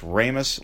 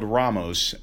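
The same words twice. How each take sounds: First: The first syllable rhymes with 'fame' in famous. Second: The first syllable does not rhyme with 'fame'. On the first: "It's Ramos like famous" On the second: "but it's spelled Ramos"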